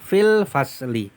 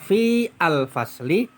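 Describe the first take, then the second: First: The 'a' of 'al' is dropped and joined. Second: The 'a' of 'al' is pronounced separately. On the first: The speaker calls it right. "tetapi langsung fil fasli" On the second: The speaker calls it wrong. "Maka tidak dibaca fi al-fasli"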